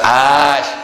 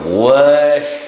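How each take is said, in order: First: The syllable starts directly with a vowel. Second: The syllable starts with an added w sound. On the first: The speaker calls it right. "Kita kata ash" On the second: The speaker calls it wrong. "dia wash. Awal tak betul lah"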